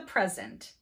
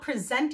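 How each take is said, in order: First: The stress is on the first syllable. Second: The stress is on the second syllable. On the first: It is used as a noun. "the stress is on the initial syllable in the nouns" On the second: It is used as a verb. "on the second or final syllable in the verbs"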